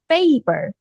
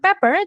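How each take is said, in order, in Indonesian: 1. Vokal pertama panjang, seperti di 'pay'. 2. Vokal pertama pendek, seperti di 'pep'. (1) "Jadi bacanya paper" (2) "bukan pepper"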